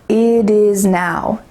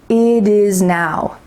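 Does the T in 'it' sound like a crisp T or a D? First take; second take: D; D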